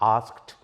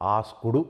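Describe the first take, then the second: First: The word ends in a short t sound. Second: The word ends with an extra vowel syllable. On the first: The speaker calls it right. "టీఏ టీఏ వస్తుంది" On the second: The speaker calls it wrong. "ఆస్కుడు అనకూడదు"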